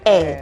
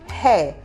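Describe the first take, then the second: First: The word starts directly with the vowel. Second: The word starts with a breathy H sound. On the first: The speaker calls it right. "What you say is air. That's because the letter H in that word is silent" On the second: The speaker calls it wrong. "you don't say hair"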